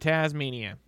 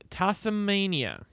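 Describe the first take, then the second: First: The middle consonant sounds like a z. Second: The middle consonant sounds like an s. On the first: "Taz, whatever. I'm used to it being a Z"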